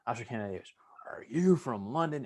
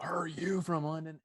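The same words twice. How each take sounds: First: Imitating a barking drill instructor, louder on the question; a drill instructor grilling a recruit; drill instructor's tone. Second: Hushed, slow demo of the drill instructor's tone; showing the listener how the drill instructor sounded. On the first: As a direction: bark it like a drill sergeant. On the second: Shown as a demonstration. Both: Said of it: "you gotta get the tone right of the voice".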